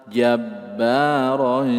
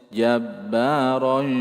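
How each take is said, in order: Both takes have the same delivery.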